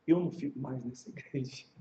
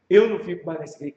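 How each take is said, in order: First: Low, soft quoted refusal; muted retold complaint. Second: Quicker, firmer quoted complaint; retold indignant refusal. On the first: Offended member refusing to stay, low and subdued. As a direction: quote the complaint quietly, pitched down. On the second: Offended member refusing to stay, brisk mock indignation.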